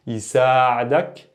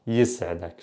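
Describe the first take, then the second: First: Slow "Yisa'adak" with saa held long; extended vowel. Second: Lower, softer "yis'adak" with s straight into ayn; no extension. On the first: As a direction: draw out the a in "Yisa'adak", rising at the end. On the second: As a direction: keep "yis'adak" short, no long a. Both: Shown as a demonstration. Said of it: "pay attention to the extension".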